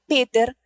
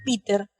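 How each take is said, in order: First: The name is said with German pronunciation. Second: The name is said with English pronunciation. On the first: It reflects schooling at a German school. "colegio alemán, Santa Úrsula, que me llevaba a pronunciar Peter" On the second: It is how a sibling said it. "y no Peter, como hacía mi hermano"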